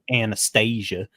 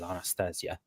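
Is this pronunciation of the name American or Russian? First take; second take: American; Russian. First: The name is said the Americanized way. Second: The name is said the traditional Russian way. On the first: "Americanized pronunciation" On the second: "the traditional Russian or Slavic uh, pronunciation"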